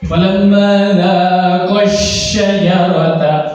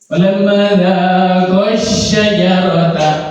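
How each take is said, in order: The two takes are said the same way.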